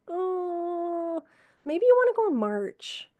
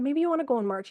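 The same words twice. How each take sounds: First: High, light pointed hint; raised-pitch gentle hint; hinting suggestion. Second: Said in the usual way. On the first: Retold or imitated. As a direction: nudge him gently but pointedly. Nurse hinting to dying patient.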